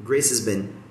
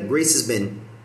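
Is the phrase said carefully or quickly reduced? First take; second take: quickly reduced; quickly reduced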